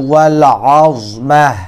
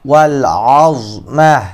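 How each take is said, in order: No difference in how they are said.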